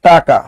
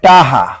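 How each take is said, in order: First: The middle consonant is a clear k sound. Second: The middle consonant is a soft h sound. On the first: "আমার দশটা টাকা দরকার" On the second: "অনেকে কয় টাহা"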